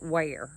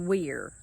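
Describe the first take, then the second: First: The name rhymes with the word care. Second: The name rhymes with the word fear. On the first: This is how the locals say the name. "they pronounce it Ware" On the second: This is how the spelling suggests it is said. "Maybe it should be Weir"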